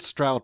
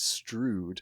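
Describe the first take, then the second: First: The vowel sounds like the one in 'loud'. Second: The vowel sounds like the one in 'food'. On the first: This is how most outsiders say it. "it is called Stroud by everyone apart from the people who actually live in it" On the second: This is the traditional local way to say it. "the historical pronunciation is Strood, which is the correct local pronunciation"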